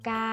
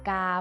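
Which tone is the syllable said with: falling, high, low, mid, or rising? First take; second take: high; low. First: The syllable is said on a high tone. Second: The syllable is said on a low tone. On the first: "ไม้ตรี" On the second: "ไม่เอก"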